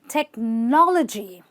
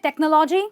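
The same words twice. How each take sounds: First: The 'logy' part has a reduced, short vowel. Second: The 'logy' part has a full, clear vowel. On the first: The speaker calls it right. "it's not logy, it's just l, g" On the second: The speaker calls it wrong. "Do you say technology? Well, stop saying it"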